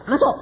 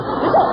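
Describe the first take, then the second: First: Said in the usual way. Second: High barked "masuk"; commanding order. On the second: Retold or imitated. Preacher ordering the lady to come in. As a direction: order her in. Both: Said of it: "Jadi saya yang merintah dia".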